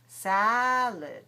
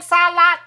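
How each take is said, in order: First: The second syllable has a reduced schwa vowel. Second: Both syllables have a full open vowel. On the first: "The second one is reduced" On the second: "that's both open"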